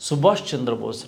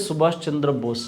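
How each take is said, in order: Both takes have the same delivery.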